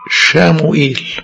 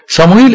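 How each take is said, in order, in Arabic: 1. الاسم يبدأ بصوت sh. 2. الاسم يبدأ بصوت s.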